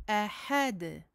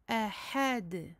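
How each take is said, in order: The two takes are said the same way.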